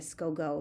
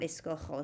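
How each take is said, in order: First: Escojo mispronounced with a hard G, "sco go"; wrong hard G. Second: "escojo" with a throaty Spanish J, like an H; Spanish J sound. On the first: Teacher showing students the unwanted form, "sco go" with hard G. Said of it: "we don't want that". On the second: Teacher giving students the wanted form, "escojo" with Spanish J sound. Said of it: "so it turns into a J". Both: Shown as a demonstration.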